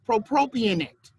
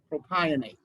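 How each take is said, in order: First: The opening syllable 'pro' is said twice. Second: The opening syllable 'pro' is said once. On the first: The speaker calls it wrong. "I said the second one wrong" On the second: The speaker calls it right.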